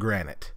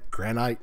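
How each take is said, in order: First: The word sounds American-accented. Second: The word sounds British-accented. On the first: The speaker calls it right. "There we go. Perfect" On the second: The speaker calls it wrong. "I've been watching too many British YouTubers"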